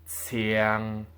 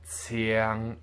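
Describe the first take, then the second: No difference in how they are said.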